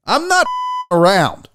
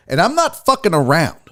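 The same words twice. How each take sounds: First: Firm line with the swear bleeped out; censored, emphatic repeat; bleeped redo. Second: Said in the usual way. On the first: Pretend. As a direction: restate it, censor beep over the curse.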